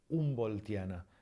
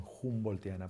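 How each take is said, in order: First: "Humboldtiana" said as oom-bol-TIA-na; correct silent H. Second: "Humboldtiana" said as hoom-bol-TIA-na; wrong sounded H. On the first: Teacher giving the correct Latin, silent h in "Humboldtiana". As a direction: start "Humboldtiana" on the vowel u, no h. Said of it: "la pronunciación es". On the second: Teacher showing what not to say, aspirated h in "Humboldtiana". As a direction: open "Humboldtiana" with a Spanish j. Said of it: "No lo convertimos en". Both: Shown as a demonstration.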